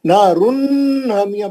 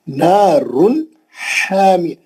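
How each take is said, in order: First: नारुन हामिया with a long hummed n; droning nnn linking नारुन to हामिया; wrongly held nun. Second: नारुन हामिया with the n cut short, no hum; crisp n in नारुन, separate हामिया; clear nun. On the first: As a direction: drag the final n of नारुन into हामिया. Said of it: "पढ़ेंगे गलत है". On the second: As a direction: end नारुन promptly, then breathe out the h of हामिया. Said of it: "नून को जितना जल्दी पढ़े". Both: Shown as a demonstration.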